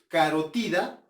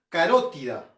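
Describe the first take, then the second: First: The stress falls on the third syllable. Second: The stress falls on the second syllable. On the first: This is how it is said in Spain. "si es como dicen los españoles, carotida, entonces es una grave" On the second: This is how it is said in the speaker's region. "nosotros decimos carótida... es una esdrújula"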